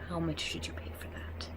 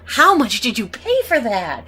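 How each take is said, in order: First: It is said flatly, without much feeling. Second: It is shouted loudly with strong feeling.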